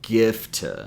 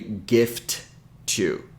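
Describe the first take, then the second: First: The two T sounds merge into one. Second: Both T sounds are pronounced separately. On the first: The speaker calls it right. "it ends up sounding like gift" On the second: The speaker calls it wrong. "we don't say gift to"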